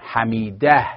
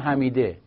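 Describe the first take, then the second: First: The last syllable has an 'a' vowel. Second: The last syllable has an 'e' vowel. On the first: This is the Arabic form of the name. "اگه عربی باشن قبلشون فتح است" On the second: This is the Persian form of the name. "ولی تو فارسی ما میگیم حمیده"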